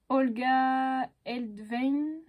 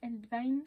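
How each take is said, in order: First: "Olga Eldvein" drawn out slowly, each syllable tried carefully; unsure pronunciation. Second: "Eldvein" repeated quickly and softer, /ɛldvan/ with a rising doubtful end; retry "Eldvein" lightly, as a question; second try. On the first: Vlogger reading a designer's unfamiliar name aloud, slow careful first guess. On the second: Vlogger retrying the designer's name, quick unsure rising repeat. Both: Shown as a demonstration. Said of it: "je sais pas comment on le prononce".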